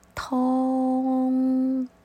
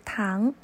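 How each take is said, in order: First: The word is said with Cantonese pronunciation. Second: The word is said with Mandarin pronunciation. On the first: "粤语是tong tong" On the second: "普通话是糖"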